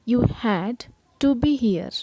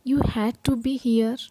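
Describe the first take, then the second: First: Said in the usual way. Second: Very slow, each word spaced apart; slow model reading. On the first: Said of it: "teacher repeats at normal speed". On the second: Shown as a demonstration. Teacher models the sentence slowly for her students. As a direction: read it slowly so the learner can copy. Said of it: "teacher models a sentence slowly".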